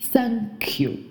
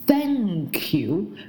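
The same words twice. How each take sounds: First: The first sound is a hissing 's'. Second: The first sound is 'th' with tongue between teeth. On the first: The speaker calls it wrong. "不会去在th 上面去咬舌，发的是嘶的音" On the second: The speaker calls it right. "谢谢你我们都知道叫做thank you"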